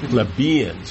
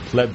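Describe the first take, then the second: First: The stress falls on the second syllable. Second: The stress falls off the second syllable. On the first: "in American, at least you put all the emphasis on the second syllable" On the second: "rather than"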